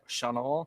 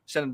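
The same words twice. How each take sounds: First: It is said with a French pronunciation. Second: It is said with an American pronunciation. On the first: "the real the French Chenin" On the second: "like we say Chenin Blanc"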